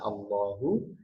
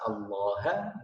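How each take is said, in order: First: The word ends with an u vowel. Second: The word ends with an a vowel. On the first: The word is in the nominative position. "harokatnya dhammah" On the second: The word is in the accusative position. "haknya ini bisa berubah menjadi ha"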